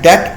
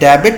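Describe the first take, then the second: First: The b is silent, giving one syllable. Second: The b is pronounced, giving two syllables. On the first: The speaker calls it right. "ये बी silent है, bad डेट पढ़ना है" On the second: The speaker calls it wrong. "इसको डेबिट नहीं पढ़ना आपने"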